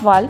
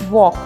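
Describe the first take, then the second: First: It uses a local-style English pronunciation. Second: It uses a standard English pronunciation. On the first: The speaker calls it wrong. "It's not walk" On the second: The speaker calls it right. "it's walk"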